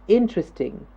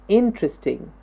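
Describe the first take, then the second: No difference in how they are said.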